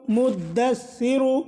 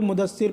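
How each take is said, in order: First: The d sound is held and doubled. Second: The d sound is short and single. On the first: The speaker calls it right. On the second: The speaker calls it wrong.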